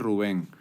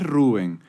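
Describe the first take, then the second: First: The name is pronounced the Spanish way. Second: The name is pronounced the English way. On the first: "en español se traduce" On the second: "en inglés"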